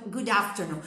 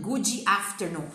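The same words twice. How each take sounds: First: Said in the usual way. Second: "Good" said as "goo-djee" before "afternoon"; slow "goo-djee afternoon"; extra vowel mistake. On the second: Shown as a demonstration. Teacher mocking learners' mistake, "Good" turned into "goo-djee". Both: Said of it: "Você não vai falar".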